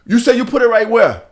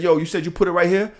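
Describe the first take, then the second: First: Higher, louder check with disbelief on "where"; pointed, raised-voice challenge; incredulous retold question. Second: Said in the usual way. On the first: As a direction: act out calling someone's bluff. Voices Jamaican's disbelieving second check.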